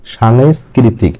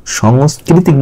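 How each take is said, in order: First: সাংস্কৃতিক said slowly with an open "sha" first syllable; slow, careful সাংস্কৃতিক starting "shan-"; teacher models the right সাংস্কৃতিক slowly; correct pronunciation. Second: সাংস্কৃতিক said with a short rounded "sho" first syllable; সাংস্কৃতিক starting "shong-", without the aakar; teacher shows the mistaken সাংস্কৃতিক; wrong pronunciation. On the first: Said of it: "তাহলে আপনাকে বলতে হবে". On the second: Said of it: "এটা কিন্তু আপনার ভুল উচ্চারণ হবে". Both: Shown as a demonstration.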